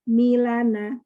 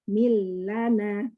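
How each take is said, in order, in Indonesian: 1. Bunyi L pendek dan cepat. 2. Bunyi L ditahan sebentar. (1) "Kalau tanpa syaddah dibaca milana" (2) "Karena ini ada syaddah jadi mil"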